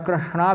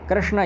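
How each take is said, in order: First: The word ends in a long aa vowel. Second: The word ends in a short vowel. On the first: The speaker calls it wrong. "और कृष्णा भी नहीं है" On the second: It names the deity. The speaker calls it right. "यह वाला सही है"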